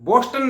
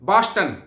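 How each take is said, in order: First: The first vowel is a rounded 'o' sound. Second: The first vowel is an open 'aa' sound. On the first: This is how it is written, not said there. The speaker calls it wrong. "बोस्टन नहीं बोला जाता" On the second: This is how people living there say it. The speaker calls it right. "बास्टन बोला जाता है"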